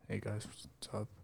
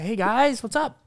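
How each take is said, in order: First: It sounds flat, low and deflated. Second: It sounds charismatic, lively and upbeat.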